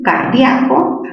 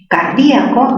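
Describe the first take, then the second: First: The ia is one stressed syllable. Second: The stressed i is split from the a. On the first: "aquí grave"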